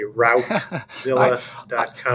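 It is said the way Americans say it.

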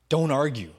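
The voice sounds harsh, angry and commanding. Jesus is authoritarian and displeased. "in a way that makes Jesus out to be angry and authoritarian"

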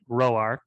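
The name is said in a Southern American way.

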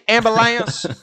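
It is said in a Southern US accent. "You imagine in the South?"

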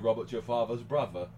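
The th sounds are replaced with f or v. "They say Robert's your father's brother"

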